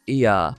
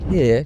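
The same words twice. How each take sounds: First: "ear" for here, H dropped as in Devon; Devon accent. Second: Said in the usual way. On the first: Shown as a demonstration. Teacher showing learners a simple word, Devon accent. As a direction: drop the H Devon-style: "ear". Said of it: "can sound more like ear". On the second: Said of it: "a simple word like here".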